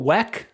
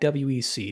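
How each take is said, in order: First: It is said as a single word. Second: Each letter is said separately. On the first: The speaker calls it wrong. "which people call W E C. I don't like that" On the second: The speaker calls it right. "I like W E C. Don't pronounce it"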